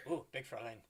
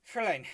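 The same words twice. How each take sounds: First: Put-on quieter German accent, lower pitch; half-swallowed German-accented aside; German accent, softer. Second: Put-on clumsy German accent on Fräulein; a weak stab at German. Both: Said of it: "German accent is not very good".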